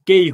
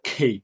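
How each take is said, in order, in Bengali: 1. প্রথম ব্যঞ্জনটি অল্পপ্রাণ, এতে কোনো শ্বাস নেই। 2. প্রথম ব্যঞ্জনটিতে শ্বাসের একটি জোরালো ফুঁ আছে। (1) "এটা কেই হবে না" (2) "এটা হবে খেই।"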